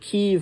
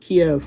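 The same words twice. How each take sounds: First: The name is said the Ukrainian way, Kyiv. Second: The name is said the Russian way, Kiev. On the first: The speaker calls it right. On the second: The speaker calls it wrong.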